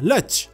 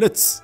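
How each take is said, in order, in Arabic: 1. الصوت الأخير هو صوت ch. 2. الصوت الأخير هو صوت ts. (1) "تتحول إلى لتش" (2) "أو لتس"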